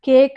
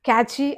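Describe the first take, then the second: First: It sounds like 'cake', ending in a k. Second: It sounds like 'catchy', with two syllables. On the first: "కేక్ అని కానీ ఏదో ఒకటి అంటాం" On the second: "మనం ఏమంటాం? క్యాచీ అని కానీ"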